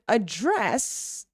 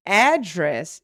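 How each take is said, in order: First: "address" as a verb, slow a-DRESS; weak "a", drawn-out DRESS in "address"; stress on second syllable. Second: "Address" as a noun, AD-dress; stress on first syllable. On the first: Teacher giving the verb form, second-syllable stress on "address". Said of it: "which is the verb". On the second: Teacher giving the noun form, first-syllable stress on "Address". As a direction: punch AD in "Address". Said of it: "Address is the noun". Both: Shown as a demonstration.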